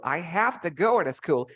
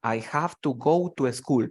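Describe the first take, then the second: First: I have to go to school run together smoothly; teacher model of linked speech; linked words. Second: Each word said separately, I have to go to school; mock wrong, choppy word-by-word English. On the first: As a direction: glide the words into each other. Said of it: "you link the words". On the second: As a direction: clip every word apart. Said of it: "You never say". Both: Shown as a demonstration.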